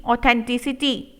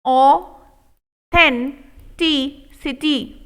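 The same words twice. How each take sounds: First: Said in the usual way. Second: Authenticity stretched very slow; walk through each syllable; slow model take. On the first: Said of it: "quick soft repeat". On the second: Shown as a demonstration. Teacher modelling authenticity slowly. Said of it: "slow model take".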